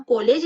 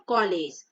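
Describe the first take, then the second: First: कॉलेज said as "ko-lej"; कॉलेज with rounded closed o, as spelt; wrong closed o. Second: कॉलेज as "kaw-lej", pitched lower; कॉलेज with vowel between aa and o; correct open vowel. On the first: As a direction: say कॉलेज with a pure long o. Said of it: "इसको हम कॉलेज नहीं पढ़ेंगे". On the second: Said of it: "हम इसको कैसे पढ़ते हैं". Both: Shown as a demonstration.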